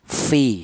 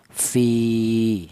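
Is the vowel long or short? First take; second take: short; long. First: The vowel is held for one short beat. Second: The vowel is held for two beats. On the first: "dibaca pendek, yaitu satu ketukan ya, satu harokat" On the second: "dipanjangkan dua ketukan atau dua harokat"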